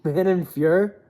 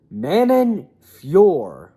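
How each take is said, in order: First: Fior said as "fyur", rising; questioned pronunciation. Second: Fior drawn out slowly as "fyor"; drawn-out name pronunciation. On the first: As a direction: query Fior with a reduced "fyur" ending. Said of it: "Why do they pronounce it like that". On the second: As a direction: stretch Fior into a long, full "fyor". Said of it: "Why do they pronounce it Fior". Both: Shown as a demonstration.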